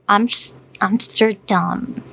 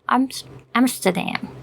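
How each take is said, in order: First: It is said with a Dutch accent. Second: It is said with an American accent.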